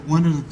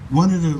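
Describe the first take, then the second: No difference in how they are said.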